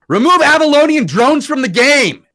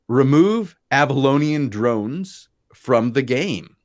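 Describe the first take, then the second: First: It is shouted loudly with strong emphasis. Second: It is read flatly, without emphasis.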